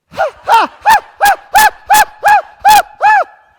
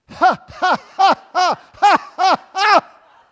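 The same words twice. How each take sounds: First: Very high, loud "ha" bursts; high exercise laugh. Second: Loud, forced "ha" bursts, evenly spaced; exercise laugh. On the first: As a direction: force out rhythmic laughs in a high squeal. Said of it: "laugh a little higher". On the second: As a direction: pump out deliberate belly laughs for an exercise. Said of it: "now we're going to laugh". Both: Shown as a demonstration.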